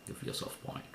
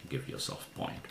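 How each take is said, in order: The two takes are said the same way.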